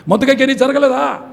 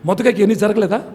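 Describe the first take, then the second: First: మొదకైకి pushed forward, a little higher and louder; stronger repeat. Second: Said in the usual way. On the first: Real, not acted. Preacher presses the congregation, stressing మొదకైకి. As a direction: lean into మొదకైకి the second time.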